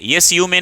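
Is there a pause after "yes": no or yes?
no. It is said straight through without a pause. The speaker calls it wrong. "यस यू मे नहीं बोलेंगे"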